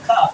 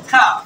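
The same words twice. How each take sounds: First: "কাফ" with a British long aa. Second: American "কাফ" with a front ae vowel; American accent. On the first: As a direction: say "কাফ" with aa as in father. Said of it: "আ উচ্চারণ করবা". ("কাফ" লম্বা আ দিয়ে) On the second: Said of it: "আমেরিকানরা এগুলো কিভাবে উচ্চারণ করে". ("কাফ" American অ্যা দিয়ে) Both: Shown as a demonstration.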